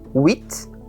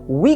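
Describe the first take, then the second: First: The final T sound is pronounced. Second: The final T sound is silent. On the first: "o T se pronuncia se a palavra seguinte não começar por consoante" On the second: "o T se pronuncia se a palavra seguinte não começar por consoante"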